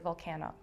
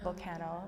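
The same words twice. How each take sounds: First: The word sounds slightly changed, as inside the compound. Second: The word sounds slightly changed, as inside the compound.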